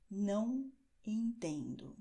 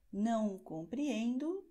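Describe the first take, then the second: First: Slow and deliberate, falling at the end; teacher giving the equivalent phrase; slow model phrase. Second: Slow model phrase. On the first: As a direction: repeat it slowly and clearly. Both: Shown as a demonstration. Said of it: "A mesma coisa é".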